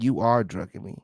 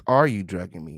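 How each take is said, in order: First: "You are drugging me" with weight on YOU; contrasted statement wording. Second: "Are you drugging me?" low and falling, ARE leading; proper question wording. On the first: Host rejects the transcript's wording, stress on YOU. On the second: Host shows what the question should be, low falling tune. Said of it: "The question here is". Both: Shown as a demonstration.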